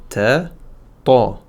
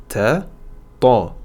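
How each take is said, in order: The two takes are said the same way.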